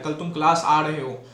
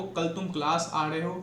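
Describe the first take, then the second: First: "कल तुम class आ रहे हो" said flat with a fall on "class"; statement tune. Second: "कल तुम क्लास आ रहे हो" asked with a rise on "class"; question tune. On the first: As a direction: tell it, not ask it, falling at the end. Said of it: "तो pitch पे depend करता है". (बताने वाला गिरता लहजा) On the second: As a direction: ask it, pitch rising at the end. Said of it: "question mark है". (प्रश्न वाली उठती आवाज़) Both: Shown as a demonstration.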